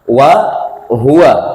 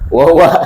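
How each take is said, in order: First: The two words are kept separate. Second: The two words are run together. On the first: The speaker calls it right. "dua lafaz yang berbeda" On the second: The speaker calls it wrong.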